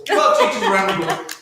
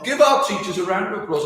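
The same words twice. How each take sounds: First: Said in the usual way. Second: Talking with a mouth full of cake; words muffled round a mouthful. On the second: Real, not acted. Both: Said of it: "I'm still talking with my mouth full".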